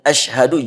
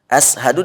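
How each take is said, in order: First: It begins with an sh sound. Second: It begins with a plain s sound. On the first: The speaker calls it right. "Yang ada asyhadu" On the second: The speaker calls it wrong. "Jangan ashadu"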